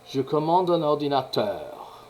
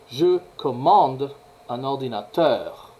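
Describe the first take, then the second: First: Only the phrase's last syllable is stressed. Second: Several syllables across the phrase are stressed. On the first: The speaker calls it right. "c'est seulement cette syllabe qui est accentuée" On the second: The speaker calls it wrong. "ça c'est l'utilisation de l'accentuation anglaise en français"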